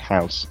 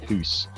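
First: It has the modern English 'house' vowel. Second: It has an 'oo' vowel, Middle English style.

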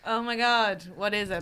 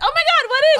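First: The voice sounds alarmed and dismayed. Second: The voice sounds excited and eager. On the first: The speaker was worried about the costume. "The tone was actually" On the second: The speaker was keen to hear about the costume. "But you read it as"

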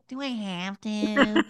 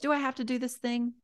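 First: It is said in a childish, whiny voice. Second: It is said in a calm, grown-up voice.

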